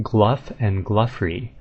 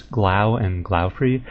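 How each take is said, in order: First: Gluff rhyming with stuff; "Gluff and Gluffrey", closing on an f sound; official pronunciation. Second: Glau rhyming with cow; slow "Glau and Glaufrey", no f closing Glau; speaker's own reading. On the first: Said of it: "they pronounce them". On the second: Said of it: "how you get Gluff out of Glau". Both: Shown as a demonstration.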